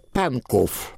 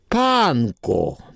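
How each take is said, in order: First: The word ends with a final v sound. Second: The word ends on the vowel, no v. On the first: It is read literally from the written name. The speaker calls it wrong. "Я говорю так, как там написано" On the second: It is the local way the name is said. The speaker calls it right. "Вот одна буква"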